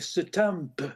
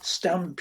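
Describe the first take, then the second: First: The word is said with an extra sound added. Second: The word is said plainly, with no added sound. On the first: A speaker after a stroke says it this way. "you start so adding like extra sounds" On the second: A typical speaker says it this way. "instead of saying stamp"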